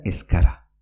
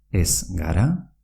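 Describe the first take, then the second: First: "escara" as es-kara, not es-gara. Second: Said in the usual way. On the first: Shown as a demonstration. Teacher repeats the merged form, g as k. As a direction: run "escara" together with a k. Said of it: "se pronuncia". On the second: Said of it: "se pronuncia escara".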